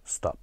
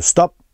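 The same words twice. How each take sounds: First: Soft, gentle stop; kinder. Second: Firm, higher-pitched stop command; more serious. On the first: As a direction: ask kindly to stop, much softer. (مهربون و آروم) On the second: (جدی و محکم) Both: Shown as a demonstration.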